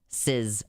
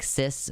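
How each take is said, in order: First: The word ends in a buzzing z sound. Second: The word ends in a hissing s sound. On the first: "make it rhyme with his" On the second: "we pronounce it like cis"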